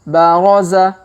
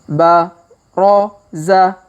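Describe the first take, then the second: First: The syllables are read quickly. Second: The syllables are read slowly. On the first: "Kalau dipercepat" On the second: "Kita baca pelan-pelan"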